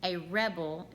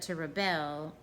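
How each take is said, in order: First: "rebel" said REB-ul, first syllable stressed; noun stress on rebel. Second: "rebel" said ri-BEL, second syllable stressed; verb stress on rebel. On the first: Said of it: "is a noun". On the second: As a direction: lean on the last syllable of "rebel". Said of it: "is a verb". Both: Shown as a demonstration.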